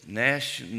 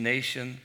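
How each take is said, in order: First: Nation said short as /næʃn/ with a flat a; clipped nation. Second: Nation said in full as /neɪʃən/ with a long a; corrected nation. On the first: Teacher stumbling on the word, saying nation short and flat. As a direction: swallow the vowel in nation so it comes out as nashn. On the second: Teacher correcting himself and saying nation clearly. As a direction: say nation clearly, NAY-shun. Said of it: "The nation". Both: Shown as a demonstration.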